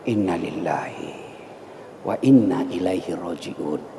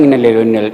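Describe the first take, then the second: First: It is said slowly, with deep feeling. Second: It is said casually, without feeling.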